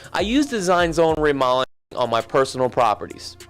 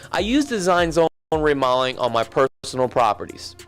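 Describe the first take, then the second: No difference in how they are said.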